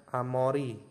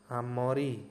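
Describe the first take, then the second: Both takes have the same delivery.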